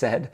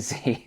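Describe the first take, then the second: First: The letter is named the Canadian way. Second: The letter is named the American way.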